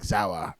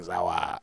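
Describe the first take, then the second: First: Said in the usual way. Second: Imitating a thick German "Sauer"; thick German accent. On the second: Host mimics his German bandmate's word, thick German accent. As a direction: say "Sauer" with a German open "ah" ending. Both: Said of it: "such a thick, uh, Germanic accent".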